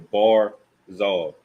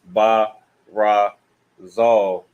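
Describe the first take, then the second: First: The word is said as two joined syllables. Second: The word is split into three separate syllables. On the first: The speaker calls it right. "you connect these two characters and these two characters" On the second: The speaker calls it wrong. "follow the rule. You would want to ba ra zal"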